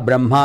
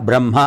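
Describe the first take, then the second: The two takes are said the same way.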